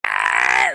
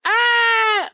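First: Low guttural scream from the throat. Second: High thin whining scream without throat; wimpy bitching yell; whiny fake scream. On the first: Showing the right way to scream, throaty roar. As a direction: scream from the throat like a real one. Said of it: "like that". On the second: Showing the wrong way to scream, whiny yell. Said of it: "That's, that's not screaming". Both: Shown as a demonstration.

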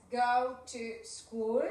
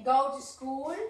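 First: Slowed repeat of the phrase; slow model. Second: Said in the usual way. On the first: Shown as a demonstration. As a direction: stretch it out for the kids. (más lento)

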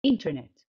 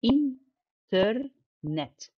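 First: Said in the usual way. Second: Internet broken into in, ter, net with gaps; very slow internet, pausing after each syllable. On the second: Shown as a demonstration. (internet مقطعة ببطء: in، ter، net) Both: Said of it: "أدي أول مقطع".

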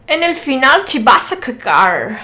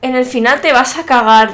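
First: Louder Spanish with English vowels and r; imitated English accent. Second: Said in the usual way. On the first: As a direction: mimic an English speaker reading Spanish. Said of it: "que habla con acento inglés".

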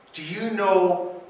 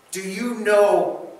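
The two takes are said the same way.

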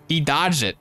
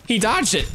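First: Said in the usual way. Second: High, incredulous yelp on dodged; surprised. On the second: Real, not acted. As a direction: squeak it out in disbelief, much higher. Enemy dodged his spear.

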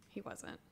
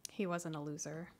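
First: Soft whispered repeat. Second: Said in the usual way. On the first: Real, not acted. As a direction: breathe it out as an aside. Repeats the denial, then whispers it.

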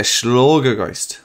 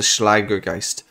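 First: Schlagergeist with an open o, "shlogger-gaist"; Schlagergeist, German style. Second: Schlagergeist with a flat a, "Schlager-kaist"; Schlagergeist, English style. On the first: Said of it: "it could be a Schlagergeist". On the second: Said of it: "That's how I'm gonna pronounce it". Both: Shown as a demonstration.

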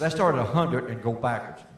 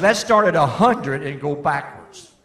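First: Said in the usual way. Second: Louder, slower, pointed retelling; lightly voiced father making his point; emphatic quote. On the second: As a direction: land the father's line with weight. Quoting Daddy, then repeating it.

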